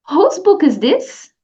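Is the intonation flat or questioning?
questioning. It is said with clear question intonation. It is clearly heard as a question. The speaker calls it right.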